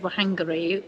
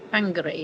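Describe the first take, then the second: First: The name starts with a w sound. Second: The name starts with an f-like sound. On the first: This is how visitors assumed it was said. The speaker calls it wrong. "we thought it was Wahangari" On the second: This is how locals say it. The speaker calls it right. "is Bang, Bangari, isn't it?"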